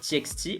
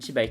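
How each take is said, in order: First: The middle X is said as the letter. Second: The middle X is said as the word 'by'. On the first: "est-ce que vous dites T X T" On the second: "ou T by T"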